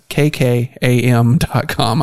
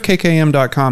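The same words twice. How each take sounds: First: The address is said slowly and clearly. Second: The address is said very quickly. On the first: The speaker calls it right. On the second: The speaker calls it wrong.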